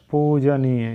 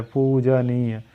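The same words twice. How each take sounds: First: पूजनीय as the mistaken version; wrong form shown. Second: पूजनीय slowly, poo-ja-nee-ya; drawn out पूजनीय for students; slow correct form. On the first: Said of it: "यही गलत है". (गलत उच्चारण) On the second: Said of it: "होना चाहिए". (पूजनीय धीरे से सही उच्चारण) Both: Shown as a demonstration.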